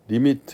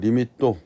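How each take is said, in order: First: It is said in ordinary Korean pronunciation. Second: It ends with a tense 'tto' in a Japanese accent. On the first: "리미트 이렇게 못하고" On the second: "일본 애들은 받침이 없는 언어를 쓰기 때문에 ... 리미또 뭐 이렇게 발음하죠"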